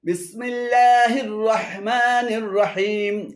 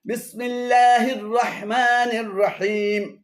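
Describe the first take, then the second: No difference in how they are said.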